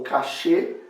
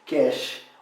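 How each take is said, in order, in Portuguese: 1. Ela é falada do jeito francês. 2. Ela é falada do jeito inglês. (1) "que tinham feito doutorado na França... pronunciavam como cachê" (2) "os que fizeram doutorado nos Estados Unidos... pronunciavam cache"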